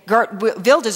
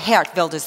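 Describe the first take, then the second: First: The name is said with English-style sounds. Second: The name is said with Dutch-style sounds. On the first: The speaker calls it wrong. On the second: The speaker calls it right.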